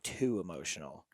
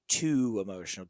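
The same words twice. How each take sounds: First: The first word is a weak, reduced 'to'. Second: The first word is a full, stressed 'too'. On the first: It sounds like the start of an analogy. The speaker calls it wrong. "Not too emotional" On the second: The person has an excess of emotion. The speaker calls it right. "T O O"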